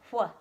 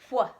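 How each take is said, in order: First: It is a breathy blown 'hw' sound. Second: The same.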